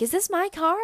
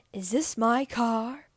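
First: High, loud, mock-thrilled girl; imitated excitement. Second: Drawn-out, slow imitation of an ad actor; imitated commercial line. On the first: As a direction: mimic a girl thrilled by her new car. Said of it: "Like, she's excited". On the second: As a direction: lightly mimic an upset man's question, slowly. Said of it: "looks and sounds like him, and he goes".

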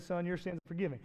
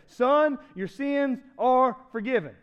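First: Said in the usual way. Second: SON set apart and raised, then "your sins are forgiven" word by word; emphatic quote. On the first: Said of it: "He looked at the man and said". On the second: Retold or imitated. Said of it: "Now, notice what Jesus said".

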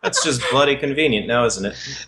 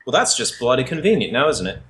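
First: Aussie repeat, falling away at the end; same Aussie jab, trailing off; Australian accent. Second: Drawled Aussie line, dry and wry; Australian accent. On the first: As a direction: hammier Australian take. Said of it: "my share of terrible accents". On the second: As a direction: lay on the Australian twang. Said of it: "What part of Australia is Avalon from?". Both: Acted.

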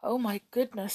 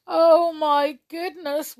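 First: Small, understated frightened voice. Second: Loud, high, slow wail; miserable wail. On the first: Skip hearing of the witch, mildly frightened. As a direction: say it with hushed alarm. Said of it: "said Skip in a frightened voice". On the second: Jump hearing of the witch, wailing miserably. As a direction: drag it out in misery. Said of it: "wailed Jump in a miserable voice". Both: A narrator's reading.

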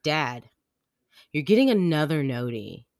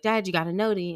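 First: Louder, mildly mock-annoyed complaint; imitating pissed kid. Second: Higher, louder imitation of a child's question; kid alerting dad. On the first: Daughter interrupted by another text, mock-annoyed. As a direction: break after the name, then lean on the complaint. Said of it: "Like, she got pissed". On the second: Daughter telling dad about a text, simply alerting. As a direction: chirp a quick question in a kid voice.

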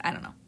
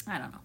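First: Said in the usual way. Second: I don't know, lower and much softer, trailing; dropped low and soft. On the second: Real, not acted. A reader shrugging to herself, lower and softer. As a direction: let it fall away, almost to yourself.

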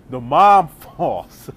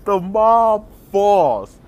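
First: Laughing through the words; cracking up mid-line, slow; slow words broken by a laugh. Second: Slow, drawn out and loud; slow mock-epic announcement; slow-motion drama. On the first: Real, not acted. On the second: Shown as a demonstration. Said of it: "super dramatic, slow motion".

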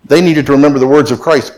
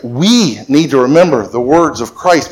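First: Said in the usual way. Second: "We" drawn out and stressed. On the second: Shown as a demonstration. Preacher turns it on the congregation, stressing WE. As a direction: lean long on "We".

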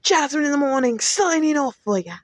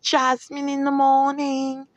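First: Higher, brighter DJ sign-off; radio host sign-off. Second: Slow, higher announcer voice; radio host sign-off. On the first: Podcast host signing off to listeners, upbeat announcer voice. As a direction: sell the show name like a morning DJ. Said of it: "So, once again". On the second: Podcast host naming her show to listeners, slow announcer voice. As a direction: stretch out the show name like a DJ. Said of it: "Once again, this is". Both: Acted.

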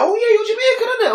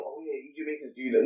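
First: High-pitched quote of a woman; imitating her remark. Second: Low, soft mock quote. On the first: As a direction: mimic her casual question way up high. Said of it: "and then she's like". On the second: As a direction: mimic her generalizing, voice dropped right down. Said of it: "No, don't, don't stereotype".

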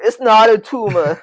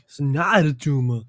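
First: Slow, higher mock Austrian Arnold line; hammed-up Austrian muscleman quote; Arnold impression. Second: Echoed Austrian Arnold quote through a laugh; laughing copy in an Austrian Arnold accent; Arnold impression. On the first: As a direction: drag it out in a heavy Austrian Arnold accent. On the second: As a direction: loose Austrian Arnold echo. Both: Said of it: "the Arnold thing".

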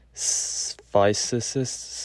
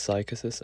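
First: "Physicist" hesitantly drawn out as "fy-sih-sist"; soft C attempt. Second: "psychicist" softly, with a hard K, "sy-kuh-sist"; a quieter, questioning "psychicist" with K in the middle; hard K attempt. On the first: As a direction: sound out "Physicist" slowly, long hiss first, then soft C. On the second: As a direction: try "psychicist" as sigh-kuh-sist, unsure. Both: Shown as a demonstration. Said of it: "I don't know how to pronounce it".

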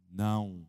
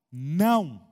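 First: "Não" very low, restrained; "Não" com entonação. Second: "Não" loud and lower, one firm swelling word; "Não" enfático. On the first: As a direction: drop "Não" to a deep, quiet single note. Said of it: "você viu que tem uma entonação?". ("Não" bem grave e contido) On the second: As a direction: say a forceful "Não" with weight. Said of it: "uma certa entonação de voz". ("Não" forte e enfático) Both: Shown as a demonstration.

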